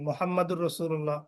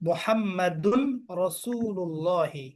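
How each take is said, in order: First: The n merges into r, with no final vowel. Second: The n is kept, with a final vowel. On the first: The speaker calls it wrong. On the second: The speaker calls it right.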